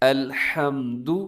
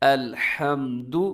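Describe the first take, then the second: The two takes are said the same way.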